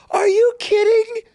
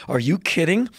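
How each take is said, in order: First: Shrieking high, loud "Are you kidding?"; incredulous. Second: Said in the usual way. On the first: Retold or imitated. Mocking conservatives' praise of Putin with a high incredulous shriek. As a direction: squeal it in disbelief. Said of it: "I'm like".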